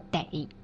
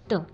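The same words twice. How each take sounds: First: The syllable has a dipping tone. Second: The syllable is short and toneless. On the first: It means must. "你这病得治的得" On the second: It links a verb to a description. "美得让人窒息的得"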